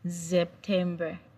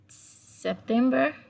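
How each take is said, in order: First: The word begins with a Z sound. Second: The word begins with an S sound. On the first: This is the German word. "but in German, it's pronounced as September" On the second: This is the English word. "September in English"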